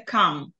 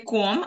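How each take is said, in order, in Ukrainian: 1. Голосний звучить як 'ah'. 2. Голосний звучить як 'oh'. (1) "а в нас це кам" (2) "тільки не ком"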